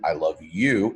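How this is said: The word you carries the stress. Only this one person is loved. "if I change it to you"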